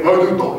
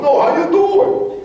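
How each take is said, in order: First: Quick, lightly imitated New York Italian greeting; New York Italian accent. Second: High, stretched, hammed-up Italian-American greeting; New York Italian accent. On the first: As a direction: toss it off like an Italian-American New Yorker. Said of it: "you just, from New York". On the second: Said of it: "Just imagine a little Italian guy".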